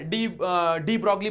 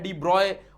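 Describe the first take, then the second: First: The surname is said with a g sound. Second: The surname is said without a g sound. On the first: "डी ब्रॉगली बोलते हैं हम उनको" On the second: "उनको प्रोनाउंस किया जाता है"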